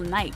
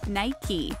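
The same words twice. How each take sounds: First: The word is said as one syllable. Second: The word is said as two syllables. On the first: The speaker calls it wrong. "mispronounce the name as one syllable" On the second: The speaker calls it right. "it's actually two syllables"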